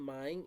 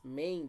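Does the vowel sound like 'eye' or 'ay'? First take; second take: eye; ay. First: The vowel sounds like 'eye', as in 'mine'. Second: The vowel sounds like 'ay', as in 'rain'. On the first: The speaker calls it wrong. "the pronunciation is not mine" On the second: The speaker calls it right. "it's main decision"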